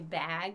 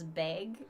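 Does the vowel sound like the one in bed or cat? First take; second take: cat; bed. First: The vowel sounds like the one in cat. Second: The vowel sounds like the one in bed. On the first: "Times when I say bag" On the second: "it comes out as beg"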